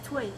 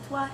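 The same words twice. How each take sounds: First: It is said with the Quebec French vowel. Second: It is said with the standard French vowel. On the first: "or toi as toi" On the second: "or toi as"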